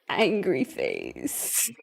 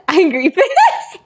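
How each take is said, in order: First: Very low, slow, soft angry voice; hammed-up low grumpy reading; mock angry. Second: Higher, slower, cracking into laughter; giggly mock-angry reading; mock angry, laughing. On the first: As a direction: drag it out in a low mock menace. Reading out poll's angry face. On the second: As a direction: play angry and fail with a laugh. Repeats angry face, breaks into laughter.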